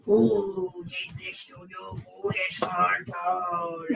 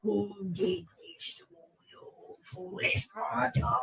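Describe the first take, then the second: First: Slow, booming, shouted demon voice; scary voice. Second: Slow, soft attempt at a menacing voice; a hushed try at sounding scary. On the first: Acted. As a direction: boom it out like a demon lord. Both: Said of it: "I was trying to sound scary".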